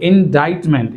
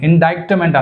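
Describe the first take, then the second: First: The word is said without a k sound. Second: The word is said with a k sound. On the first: The speaker calls it right. "ఇండైట్మెంట్ అంటే సి అనేది silent" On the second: The speaker calls it wrong. "అది ఇండైక్ట్మెంట్ అనకూడదు"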